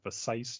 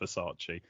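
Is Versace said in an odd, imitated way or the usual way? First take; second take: imitated; usual. First: The name is said in an odd, imitated way. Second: The name is said in the usual way. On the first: "I'm pronouncing it Versace because that's what she pronounces it in the film" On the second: "instead of Versace"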